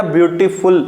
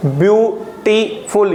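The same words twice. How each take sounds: First: Said in the usual way. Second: beautiful slowly split into three beats, view, टी, फुल; syllable by syllable. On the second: Shown as a demonstration. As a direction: break beautiful into three separate syllables with short pauses. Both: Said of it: "यहाँ पे triple syllable है".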